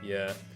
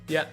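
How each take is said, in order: First: The word is said in a depressed tone. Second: The word is said in a happy tone. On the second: "and then there's happy"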